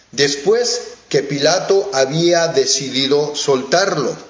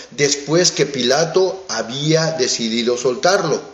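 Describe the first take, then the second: Both takes have the same delivery.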